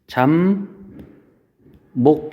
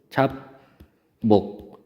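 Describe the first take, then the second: First: The first syllable ends in an m sound. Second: The first syllable ends in a p sound. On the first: This is how the word is actually pronounced. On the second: This is how the word is spelled.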